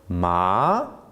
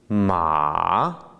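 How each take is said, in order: First: The pitch rises throughout. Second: The pitch dips down then rises. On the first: It means hemp. "but with a rising tone" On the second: It means horse. "a tone that goes down and back up"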